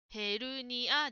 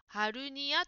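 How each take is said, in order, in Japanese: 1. 最初の音節は 'e' の母音です。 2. 最初の音節は 'a' の母音です。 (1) "ヘーですね。ヘルニアです。" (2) "ジムさんはハルニアと言っていました。ハーではなくて"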